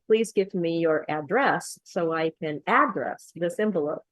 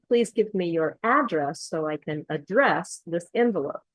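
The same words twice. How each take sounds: First: Both takes of address said as ADdress; misplaced verb stress. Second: First address as ADdress, second address as adDRESS; correct noun-verb stress. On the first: Teacher showing a client's mistake, verb address wrongly stressed ADdress. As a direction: wrongly hit AD in the second address too. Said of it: "It wouldn't be right if they said". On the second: Teacher reading the example sentence, address stressed ADdress then adDRESS. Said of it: "where the stress is". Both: Shown as a demonstration.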